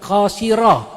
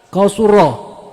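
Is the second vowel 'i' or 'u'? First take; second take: i; u. First: The second vowel is i. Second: The second vowel is u. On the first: The speaker calls it wrong. "bukan qasira" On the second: The speaker calls it right. "Yang benar adalah qasura"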